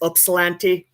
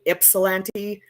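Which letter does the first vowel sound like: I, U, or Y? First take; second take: U; I. First: The first vowel sounds like the letter U. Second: The first vowel sounds like the letter I. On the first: This follows the original Greek name. "like the Greek is Upsilanti" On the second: This is how locals say it. "a lot of people will pronounce it like an I"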